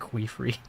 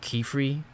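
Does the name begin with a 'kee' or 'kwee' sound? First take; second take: kwee; kee. First: The name begins with a 'kwee' sound. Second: The name begins with a plain 'kee' sound. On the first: The speaker calls it wrong. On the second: The speaker calls it right.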